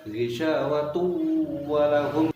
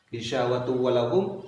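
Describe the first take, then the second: First: The nasal sound is held slightly longer. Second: The nasal sound is cut short abruptly. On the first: The speaker calls it right. "seakan-akan seperti yang dipanjatkan sedikit" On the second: The speaker calls it wrong. "jangan langsung diselesaikan bacaan itu ... salah"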